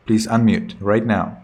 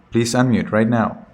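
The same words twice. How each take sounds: The two takes are said the same way.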